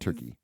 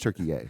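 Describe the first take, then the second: First: The name ends without an extra final syllable. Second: The name ends with an extra final syllable. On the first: The speaker calls it wrong. "It's not Turkey" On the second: The speaker calls it right. "You got to say it correctly"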